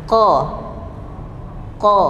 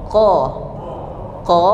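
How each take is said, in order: Both takes have the same delivery.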